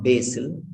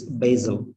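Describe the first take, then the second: First: "basil" said "BAY-sil" with hissed S; wrong S sound. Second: "basil" said "BAY-zul". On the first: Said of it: "It's not basil". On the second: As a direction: say "basil" with Z and a short weak ending. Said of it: "it's basil". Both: Shown as a demonstration.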